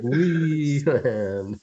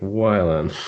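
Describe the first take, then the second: First: The first syllable sounds like "wee". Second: The first syllable sounds like "why". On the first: The speaker calls it right. "Wee. ... It's Patrick Wieland" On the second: The speaker calls it wrong. "you did it again"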